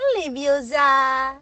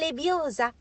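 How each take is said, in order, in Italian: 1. L'accento cade sull'ultima sillaba. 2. L'accento cade sulla penultima sillaba. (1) "Non fate come Ron! ... non lebbiosa!" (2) "È lebbiosa"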